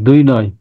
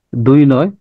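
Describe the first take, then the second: First: Said in the usual way. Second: দুই নয় said as the two separate words দুই and নয়, the way the machine read it; mimicking the AI voice. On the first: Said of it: "দুই নয় এরা উচ্চারণ করতেছে". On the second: Teacher mimics the AI's reading of দুই নয় for students, a slightly different voice. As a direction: echo the robot's দুই নয়, not as one number. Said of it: "এরা উচ্চারণ করতেছে".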